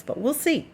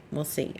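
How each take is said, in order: First: High, lilting "we'll see"; playful doubt. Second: Quiet echo. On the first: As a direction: toss it up lightly, teasing. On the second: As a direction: mutter it to yourself, settling. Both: Real, not acted. Unsure if animal parade ended.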